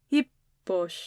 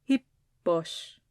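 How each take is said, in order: First: The opening H is soft and light. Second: The same.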